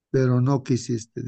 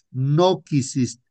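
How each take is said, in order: First: Said in the usual way. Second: "No quisiste" drawn out slowly, leaning on "No"; grieving echo, "No quisiste" stretched slow; slow emphatic repeat. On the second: Retold or imitated. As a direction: echo "No quisiste" at half speed, pressing the "No". Echoed slower for emphasis.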